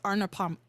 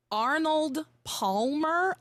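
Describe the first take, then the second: First: "Arnold Palmer" said quickly, running into "Arnold Pam"; a fast, slurred "Arnold Palmer". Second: "Arnold Palmer" slowly and carefully, each syllable drawn out; slow deliberate "Arnold Palmer". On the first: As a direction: rush "Arnold Palmer" so it slurs together. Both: Shown as a demonstration. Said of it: "I could never say it fast".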